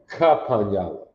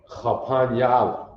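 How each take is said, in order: First: It begins with a plain k sound. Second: It begins with a guttural kh sound. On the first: The speaker calls it wrong. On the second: The speaker calls it right.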